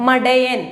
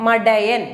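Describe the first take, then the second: No difference in how they are said.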